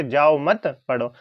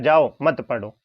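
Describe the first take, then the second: First: जाओ मत joined and slow, then पढ़ो alone; pause after मत. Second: जाओ set apart, then मत पढ़ो as one unit; pause after जाओ. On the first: Teacher quoting father's intended meaning, pause after मत. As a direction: leave a clear gap after मत. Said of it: "पिताजी से कह रहे हैं". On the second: Teacher giving child's reading of the words, pause after जाओ. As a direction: leave a clear gap after जाओ. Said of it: "और बच्चा समझ रहा है". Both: Shown as a demonstration.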